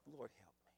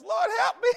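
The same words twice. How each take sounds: First: Low whispered Lord help me; whispered plea. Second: High, loud cry of Lord help me; mock cry for help. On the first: Acted. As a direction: breathe it out, nearly silent. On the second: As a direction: yell it like sudden chest pain. Preacher cries out in pain.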